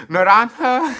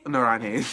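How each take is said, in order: First: Naranja said higher and louder, ending in ah, nah-RAHN-hah; corrected Spanish. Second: Naranje said with a final eh, nah-RAHN-heh; mispronounced Spanish. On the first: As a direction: fix it to Naranja with a clear final ah. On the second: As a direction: slip to Naranje ending in eh. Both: Real, not acted.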